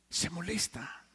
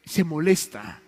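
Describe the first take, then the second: First: Repeated much softer, almost to himself; quiet echo. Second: Said in the usual way. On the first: Real, not acted. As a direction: let the repeat sink into near silence. Repeats, then drops voice. (repetición muy suave, casi para sí)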